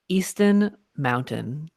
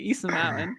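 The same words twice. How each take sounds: First: The T sounds are clearly pronounced. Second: The T sounds are softened or dropped. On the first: "this is for you" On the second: "I always say Easton Mountain"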